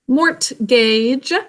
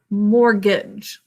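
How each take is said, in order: First: The T in the middle is clearly sounded. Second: The T in the middle is silent. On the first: It is a spelling aid, not everyday speech. "Mortgage is our thing to spell" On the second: It is the normal everyday pronunciation. "This has a silent T"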